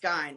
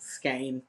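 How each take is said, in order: First: The word is said the German way. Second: The word is said the English way. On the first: "in German, it would be pronounced Skyne" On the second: "English is a weird language, so of course it's Skane"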